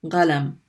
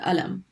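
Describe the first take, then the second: First: The word begins with a hard g sound. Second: The word begins with a glottal stop. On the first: "the qaf gets pronounced like a ga" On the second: "in many dialects, people pronounce it alam"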